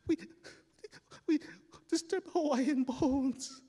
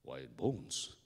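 First: High, slow, halting wail; blubbering kid, pitched way up; sobbing confession. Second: Low, puzzled echo; low-pitched adult questioning; puzzled big man. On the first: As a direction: choke it out between acted sobs. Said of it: "crying in this pool of light". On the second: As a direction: repeat it deep, as the grown man. Neighbour echoes the crying boy. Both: Acted.

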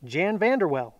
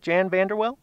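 First: "Jan Vanderwell" with a falling ending; name stated. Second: "Jan Vanderwell" as a rising question; checking pronunciation. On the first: Host repeats winner's name, "Jan Vanderwell" stated with a fall. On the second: Host checks winner's name, "Jan Vanderwell" with questioning rise. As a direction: lift the end of "Jan Vanderwell" to ask. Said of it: "Is that how you say it?". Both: Real, not acted.

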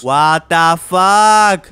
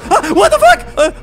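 First: Stunned drawl. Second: High startled scream breaking into a laugh; shocked shriek. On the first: Stunned by the creepy face. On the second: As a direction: yelp in real fright, then laugh. Jump scare by the game monster. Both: Real, not acted.

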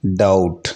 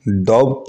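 First: डाउट said dout, no b; डाउट with no b before t; silent b. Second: डाउट said doubt with a b; डाउट with b before the t; wrong b sounded. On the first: Teacher shows डाउट said dout. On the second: Teacher shows the wrong डाउट with a b. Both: Shown as a demonstration. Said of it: "डाउट नहीं पढ़ा जाना चाहिए".

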